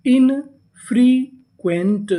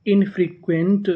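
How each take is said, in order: First: infrequent very slowly, split as इन, free, Quint; syllable-by-syllable reading. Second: Said in the usual way. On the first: Shown as a demonstration. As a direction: draw out each part of infrequent with pauses. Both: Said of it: "पूरी meaning".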